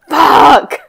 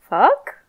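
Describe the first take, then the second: First: It sounds angry. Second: It sounds inquisitive.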